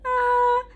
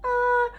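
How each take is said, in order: First: Sung, high open ah, mouth wide; sung, open head voice. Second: High ah squeezed through clenched teeth. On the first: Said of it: "If I try and do a really high note like this". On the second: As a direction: sing it with jaw clamped shut. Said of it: "through clenched teeth". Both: Shown as a demonstration.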